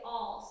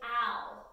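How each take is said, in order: First: The vowel is an 'o' sound. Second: The vowel is a short 'a' sound. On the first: The speaker calls it right. "we say all. So that A is going to turn into an O sound" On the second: The speaker calls it wrong. "we do not say al"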